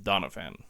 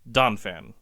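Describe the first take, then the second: First: The name has three syllables. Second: The name has two syllables. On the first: The speaker calls it wrong. "I've added that extra syllable in the middle there" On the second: The speaker calls it right. "but it's just Donphan"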